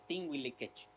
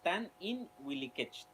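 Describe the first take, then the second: First: One merged syllable is said before wilikech. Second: Two separate syllables are said before wilikech. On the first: "algunos lo contraen, en vez de decir tan in, le dice tin wilikech" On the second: "debe ser tan y in"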